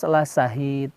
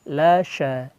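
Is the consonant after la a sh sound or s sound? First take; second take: s; sh. First: The consonant after la is a plain s sound. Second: The consonant after la is a sh sound. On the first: The speaker calls it wrong. "Awas la sahid, hati-hati" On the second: The speaker calls it right. "Pakai shin besar"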